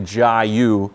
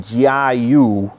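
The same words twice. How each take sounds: First: It is said with an American pronunciation. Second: It is said with a Mandarin pronunciation. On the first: "If you were to talk to an American, they'd say Jiayu" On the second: "pinyin it would be Jiayu"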